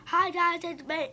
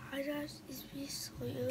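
First: Loud, raised-pitch greeting; louder intro on request; talking louder. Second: Real quiet, hesitant intro; too quiet. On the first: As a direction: belt out the hello so it is heard. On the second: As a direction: say hello barely loud enough to hear. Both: Real, not acted. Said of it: "Can you talk louder?".

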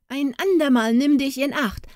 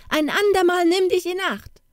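First: Calling out. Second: Put-on the warning again, pitched much higher as a boy's voice; boy's high call. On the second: Jakob warning the poodle he is choking, high call. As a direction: go up high, a small boy telling the dog off. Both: A narrator's reading. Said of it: "rief er".

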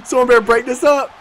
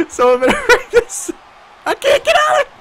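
First: Said in the usual way. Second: High laughing plea; higher laughing shout. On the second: Real, not acted. Repeated higher.

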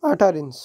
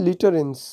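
First: "utterance" restarted with an open "ah" first vowel; "utterance" said as "attarens"; corrected pronunciation. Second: "utterance" misread with an ee-like first vowel; misread word. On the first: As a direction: correct yourself, saying "utterance" as "AH-ta-rens". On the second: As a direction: slip on "utterance", starting it like "lit". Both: Real, not acted.

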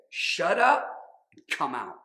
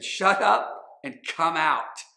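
First: Sharp command. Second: Slow, loud and firm; firm command. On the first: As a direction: snap the order at the demon. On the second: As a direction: order the demon out, word by word. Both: A narrator's reading. Jesus rebuking a demon.

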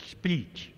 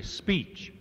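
First: Speech slurred as "peesh", the s dropped; fumbled speech. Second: Fix the word speech with a clean s; corrected speech. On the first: Speaker to farm audience, fumbling speech. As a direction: trip over the word speech, losing its s. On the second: Speaker to farm audience, correcting speech carefully. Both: Real, not acted. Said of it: "uh, excuse me".

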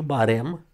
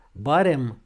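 First: Barem with the weight on final REM; stress on E. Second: Barem with BA hit loud, REM falling away; stress on A. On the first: Teacher shows the take to avoid, barem stressed on E. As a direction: lean on the E of barem. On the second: Teacher gives the correct adverb barem, stress on A. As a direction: punch the first syllable of Barem. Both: Shown as a demonstration. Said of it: "și nu barem".

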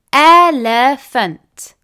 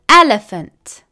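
First: Elephant said slowly, split as el-e-phant; syllable by syllable. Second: Said in the usual way. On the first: Shown as a demonstration. Teacher showing pupils the three syllables, slow and split apart. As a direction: stretch out Elephant so each of its three beats is heard. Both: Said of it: "therefore there are three syllables".

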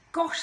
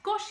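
First: A loud, higher forced gosh; dutiful gosh. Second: Polite gosh. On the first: Charlie forcing awe at Pirouette's trapeze job, loud. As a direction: sound impressed because he ought to. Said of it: "said Charlie, because he felt he ought". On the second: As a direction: murmur Gosh just to be nice. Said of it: "he said politely". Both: A narrator's reading.

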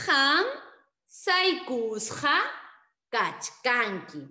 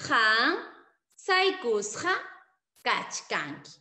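First: Han saikusqa kachkanki very slow, loud start; slow model answer. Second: Han saikusqa kachkanki repeated with pauses; spaced repeat. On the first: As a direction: stretch saikusqa for pupils. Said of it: "la respuesta será". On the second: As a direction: say each word alone for the class. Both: Shown as a demonstration.

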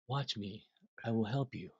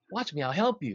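First: Softer, unhurried reassurance; quiet steady offer of help; calm and collected. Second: Urgent, lifted offer of help; louder, eager reassurance; eager helper. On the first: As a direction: soothe the panicking drummer. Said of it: "he is so calm and collected". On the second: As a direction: rush to rescue him. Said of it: "He's like". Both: Retold or imitated.

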